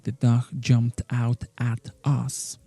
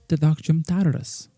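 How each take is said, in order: First: The word 'at' is pronounced fully and clearly. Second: The word 'at' is reduced and linked. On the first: The speaker calls it wrong. "So we don't say" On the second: The speaker calls it right. "We say"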